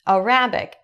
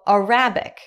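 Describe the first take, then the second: No difference in how they are said.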